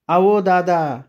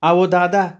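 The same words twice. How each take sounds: First: High, distant call falling away; ghostly woman calling. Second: High, distant call to the brother; a woman's voice calling through the storm; ghostly woman calling. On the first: The unseen woman calls the narrator again, high and eerie. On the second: Woman calling the narrator from the dark, high and distant. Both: Acted.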